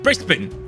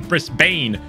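First: The last syllable is short and reduced. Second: The last syllable is a full 'bane'. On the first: "Is that how you say it?" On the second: "as like Bane from Batman"

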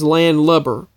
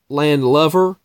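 First: The last part is said with a B sound. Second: The last part is said with a V sound. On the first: The speaker calls it right. "the correct pronunciation is Landlubber with B-B-E-R" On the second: The speaker calls it wrong. "I have always pronounced it Landlubber"

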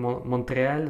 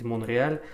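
First: A t sound is heard after the n. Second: No t sound is heard after the n. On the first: The speaker calls it wrong. "я говорю Монтреаль" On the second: The speaker calls it right. "правильно произносить Монреаль"

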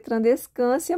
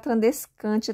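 First: The ending is said with an s sound. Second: The ending is said with a t sound. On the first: "pronuncia trandescância" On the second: "mas você pode falar trandescântia também, que tá tudo certo"

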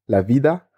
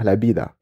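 First: The word begins with a V sound. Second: The word begins with a B sound. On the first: This is how South Americans say it. "les Argentins, ils vont dire genre la vida" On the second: This is how Spaniards say it. "les Espagnols, ils vont dire la bida"

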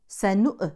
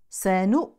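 First: The final glottal stop is released with a bounce. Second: The final glottal stop is held with no release. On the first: The speaker calls it wrong. "وليست سنؤ" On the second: The speaker calls it right. "ننتبه للهمزة الساكنة لا تقلقل"

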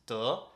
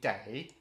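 First: The syllable sounds like 'duh'. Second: The syllable sounds like 'day'. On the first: The speaker calls it wrong. "it was always popping up as duh" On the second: The speaker calls it right. "when it should have been day"

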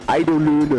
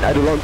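First: The word ends in a German-sounding 'löhne'. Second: The word ends in an English-sounding 'lons'. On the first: The speaker calls it wrong. "Ist das richtig? Nein" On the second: The speaker calls it right. "Eidolons eigentlich"

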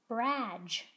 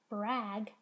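First: The final g is a soft j. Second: The final g is a hard g. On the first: The speaker calls it wrong. "and not brag?" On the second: The speaker calls it right. "How do I know it's brag"

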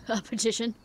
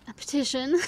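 First: It is said in a menacing, evil voice. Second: It is said in a plain, normal voice. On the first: The speaker calls it right. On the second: The speaker calls it wrong.

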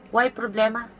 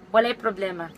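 First: The first word is shortened to one syllable. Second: The first word is said in full, two syllables.

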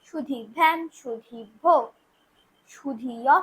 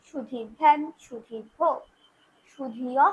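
No difference in how they are said.

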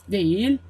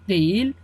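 No difference in how they are said.

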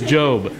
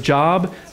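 First: The vowel is long, as in 'robe'. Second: The vowel is short, as in 'job'. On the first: The speaker calls it right. "It is Job" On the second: The speaker calls it wrong. "your head's just mispronouncing it"

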